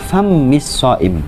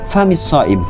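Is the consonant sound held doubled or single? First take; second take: doubled; single. First: The consonant is held long, doubled. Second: The consonant is short, not doubled. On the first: The speaker calls it wrong. "bukan famis shaim" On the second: The speaker calls it right. "yang betul itu famis shaim ... Tanpa tasdid ya"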